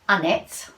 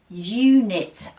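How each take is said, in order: First: The first vowel is a short 'uh' sound. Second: The first vowel sounds like the letter name 'you'. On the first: The speaker calls it wrong. "I don't think so" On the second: The speaker calls it right. "that sounds better"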